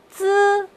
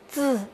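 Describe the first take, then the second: First: The pitch stays high and level. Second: The pitch dips low, then rises.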